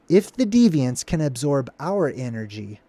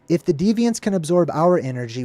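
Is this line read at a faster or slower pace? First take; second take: slower; faster. First: It is read at a slower pace. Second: It is read at a faster pace.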